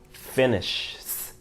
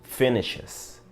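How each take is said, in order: First: The ending is a bare s sound added on. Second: The ending adds an extra syllable. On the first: The speaker calls it wrong. "no puedes decir finishes. ... Queda un poco difícil" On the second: The speaker calls it right. "tendrías que decir finishes"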